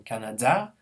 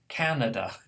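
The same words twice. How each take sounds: First: The stress is on the last syllable. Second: The stress is on the first syllable. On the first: The speaker calls it wrong. "pronounced the last syllable as stress" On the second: The speaker calls it right. "instead of"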